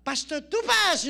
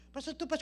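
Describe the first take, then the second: First: Slow, loud, high call of the name; hammed-up introduction; loud announcement. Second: Said in the usual way. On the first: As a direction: announce him to the crowd. Friend announces him as speaker.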